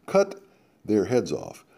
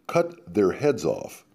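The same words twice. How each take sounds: First: "Cut" lifted sharply before the rest drops; repeated for emphasis. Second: Slow and heavy, every word weighted; slow emphatic. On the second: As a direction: Cut their heads off said slowly and deliberately. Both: Acted. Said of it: "Tom repeats for emphasis".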